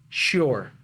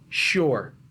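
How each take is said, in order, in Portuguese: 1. A frase é comprimida em uma única sílaba. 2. A frase é comprimida em uma única sílaba.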